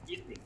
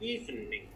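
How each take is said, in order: First: The word is said with two vowel sounds. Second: The word is said with three vowel sounds. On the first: The speaker calls it right. "There are two vowels only" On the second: The speaker calls it wrong. "Don't say evening. Okay, evening is incorrect because we don't get three vowels"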